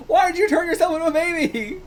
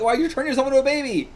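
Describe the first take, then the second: First: Very high, incredulous outcry; exasperated disbelief. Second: High, quick disbelieving question; baffled exclamation. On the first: Reader asking why he became a baby, incredulous squeal. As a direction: repeat it squeaky with bewilderment. Repeats question, much higher. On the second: Reader reacting to a baby transformation, baffled. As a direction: demand it, baffled. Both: Real, not acted.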